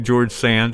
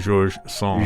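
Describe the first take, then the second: First: The first name is said the English way. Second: The first name is said the French way. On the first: "Can I say George Sand" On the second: "or do I have to say Georges Sand?"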